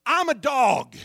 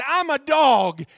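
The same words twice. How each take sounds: First: Said in the usual way. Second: "I'm a dog" repeated slower and even louder, every word hammered; slow repeated emphasis. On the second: Shown as a demonstration. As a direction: drive each word of "I'm a dog" home slowly. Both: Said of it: "I said".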